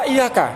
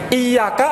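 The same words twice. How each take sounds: First: The y sound is short, not doubled. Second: The y sound is held long, doubled. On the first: "apa enggak" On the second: "pakai tasydid"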